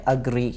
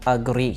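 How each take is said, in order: The two takes are said the same way.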